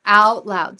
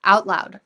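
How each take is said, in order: First: Out loud, pushed even harder and louder; louder emphasis. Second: Loud emphasis. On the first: Coaching the client to say it out loud, louder push. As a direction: hammer it home, louder. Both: Shown as a demonstration. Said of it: "Out loud, she".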